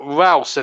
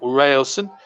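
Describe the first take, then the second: First: The first vowel is an open 'ah' sound. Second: The first vowel is an 'ay' sound. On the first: The speaker calls it right. "Ralson is his name, his correct pronunciation" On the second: The speaker calls it wrong. "not Railson"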